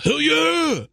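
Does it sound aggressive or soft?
aggressive. It is said aggressively.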